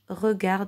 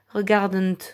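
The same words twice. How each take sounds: First: The final consonants are not sounded. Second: The final consonants are sounded out. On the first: The speaker calls it right. "on ne les prononce pas" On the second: The speaker calls it wrong. "On ne dit pas"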